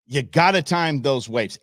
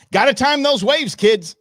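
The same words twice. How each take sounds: First: Said in the usual way. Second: Called-out advice. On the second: Real, not acted. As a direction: holler it like a warning. Mock advice after the wipeout.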